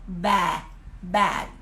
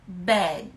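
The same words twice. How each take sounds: First: Bad with the mouth wide open on an e sound; English bad. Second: Bad with the mouth barely open, short e; English bed. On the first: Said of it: "eu abro bastante a boca, mas eu faço o som de E". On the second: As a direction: keep the mouth small on Bad. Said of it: "Olha minha boca, ela não abre tanto". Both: Shown as a demonstration. Teacher contrasting bed and bad for a viewer.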